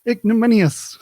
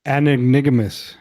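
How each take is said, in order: First: "Ignominious" said as ig-no-MIN-ious, four clear syllables; "Ignominious" with a stressed MIN, spoken clearly and loud; correct pronunciation. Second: "Anignigominous" with extra syllables, said fast and loud; mispronounced word. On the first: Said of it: "correcting the word". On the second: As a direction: garble "Anignigominous" quickly on purpose. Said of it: "say it again". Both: Shown as a demonstration.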